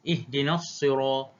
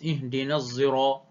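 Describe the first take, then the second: First: The s of sirat is a plain emphatic s. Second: The s of sirat is blended toward z. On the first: "al-baqun bis-sad baca dengan sad" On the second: "hamzah baca dengan ismam"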